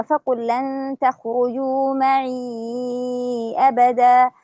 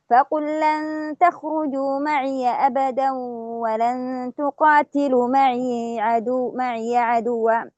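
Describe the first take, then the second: First: معي recited ending flat in ya with no vowel; silent ya in معي. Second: معي recited as maʿiya with a fatha on the ya; open ya in معي. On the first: Teacher chants the Shu'ba reading with sukun on معي. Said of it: "نأتي بالاثنين مع بعض". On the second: Teacher chants the Hafs reading with fatha on معي. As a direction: chant slowly, opening the ya of معي. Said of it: "ولكن الإمام حفص يقرأها بالفتح". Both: Shown as a demonstration.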